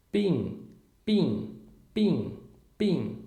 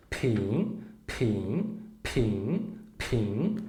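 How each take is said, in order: First: Pin with no puff of air, like b; gentle pin, the paper barely moves; unaspirated pin. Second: Pin with a strong puff of air on the p; aspirated pin. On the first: Teacher doing the paper test with Mandarin b, unaspirated pin. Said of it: "Com B de bola". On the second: Teacher doing the paper test with Mandarin p, aspirated pin. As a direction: blow the p out hard. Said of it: "Agora o outro". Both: Shown as a demonstration.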